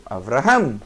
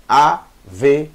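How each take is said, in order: First: Avraham in one quick run, v straight into r; read quickly. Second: Averaham broken into a, ve, ra, ham with pauses; read slowly. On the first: Teacher shows how sheva speeds reading, read quickly. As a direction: say Avraham fast and low, as one word. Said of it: "eu vou ler rápido". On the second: Teacher contrasts slow with fast reading, syllable by syllable. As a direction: spell out each syllable slowly. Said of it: "Se eu ler devagar é assim". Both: Shown as a demonstration.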